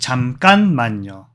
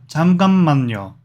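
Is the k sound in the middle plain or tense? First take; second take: tense; plain. First: The middle k sound is tense and doubled. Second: The middle k sound is plain, not tense. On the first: The speaker calls it right. "It's actually" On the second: The speaker calls it wrong. "She said"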